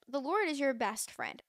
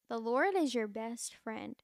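First: Said in the usual way. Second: Slow, deliberate, each word weighed; slow emphatic repeat. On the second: Shown as a demonstration. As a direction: let it land slowly. Repeats the line slowly.

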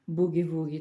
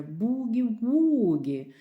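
First: Said in the usual way. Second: "Бугі-вугі" slow and louder, both "у" sounds held long. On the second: Shown as a demonstration. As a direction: hold each "у" in "Бугі-вугі" with rounded lips. (повільно й голосніше, протяжні «у» в «Бугі-вугі») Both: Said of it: "складаючи губи в трубочку і вимовляючи протяжно".

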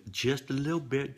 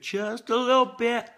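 First: Said in the usual way. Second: High, playful squeak on it; squeaky high-pitched repeat. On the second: Shown as a demonstration. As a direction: pitch it way up, teasing.

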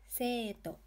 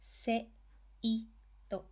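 First: Seito joined up, "Sei" held as long "See"; long vowel. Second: "Se-, i-, to" one beat at a time; syllable-by-syllable "Se-, i-, to"; sounded out. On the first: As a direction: blend it into one word, stretching the e of Seito. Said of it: "To extend syllables in the e". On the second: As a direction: separate each kana, Se, i, to, with pauses. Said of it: "you add the hiragana". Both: Shown as a demonstration.

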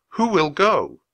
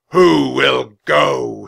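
First: Said in the usual way. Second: Slow, thunderous challenge to the whole hall; huge, drawn-out knightly call; booming. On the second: A narrator's reading. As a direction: boom each word out long and loud. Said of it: "he boomed".

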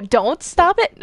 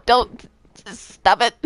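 First: "don't stop it" as one teasing question, rising at the end; DON'T STOP IT run together. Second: "don't." cut off, pause, then "stop it"; DON'T and STOP IT as two commands. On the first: Retold or imitated. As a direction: join "don't stop it" without a pause, asking. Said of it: "No, I said don't, and then I said stop it". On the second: Real, not acted. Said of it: "I said don't, and then I said stop it".

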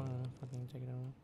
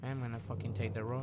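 First: Barely voiced mutter. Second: Said in the usual way. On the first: Real, not acted. Repeat very soft fast.

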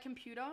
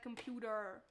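First: Said in the usual way. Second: 'computer' with an American hard final R; American accent. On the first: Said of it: "It's like, computer". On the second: Shown as a demonstration. Showing chat the easiest trick, American accent. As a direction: draw out the American R ending 'computer'. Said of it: "easiest way to do an American accent".

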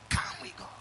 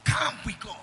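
First: Breathy whisper of the same call. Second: Calls it out loud to the hall; rally the room with it; a loud preacher's call. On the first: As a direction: hush it like a secret. Repeated call, no voice. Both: Real, not acted.

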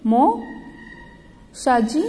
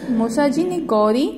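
First: "मौसा जी" drawn out very slowly; slow sounded-out word. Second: Said in the usual way. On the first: Shown as a demonstration. Teacher reading "मौसा जी" in the story to children, slowly stretched. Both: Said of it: "Jaunpur से गौरी के मौसा जी".

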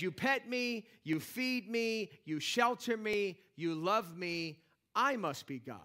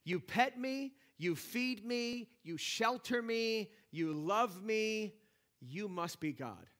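First: Slow listing of the favours, then a smug "I must be God" with the stress on I; a self-satisfied cat deciding that I am God; cat's smug voice. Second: Slow, each line leaning on you and pet, feed, shelter, love, ending on "you must be God" with the stress on you; a grateful dog reasoning that YOU must be God; slow, devoted, stress on "you"; dog's grateful voice. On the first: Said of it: "A cat, on the other hand, says". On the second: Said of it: "A dog says". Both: Retold or imitated.

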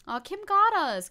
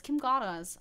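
First: Higher, louder amused outburst; excited. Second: Said in the usual way. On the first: Real, not acted. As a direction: blurt it out delighted. Excited reaction to Kim.

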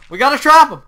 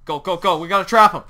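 First: High, very loud urgent yell; frantic high-pitched insistence; frantic shout. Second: Loud, urgent push; pressing, raised voice; urgent call. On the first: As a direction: shout it in a panic. Repeats it more frantically. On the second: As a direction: urge your teammate on loudly. Urgent chase of the tiger. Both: Real, not acted.

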